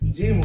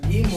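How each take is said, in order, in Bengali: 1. এটি J উচ্চারণ দিয়ে শুরু হয়। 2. এটি হার্ড G উচ্চারণ দিয়ে শুরু হয়। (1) "জিম হচ্ছে" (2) "গয়ের উচ্চারণ আসছে না, গিম হচ্ছে না"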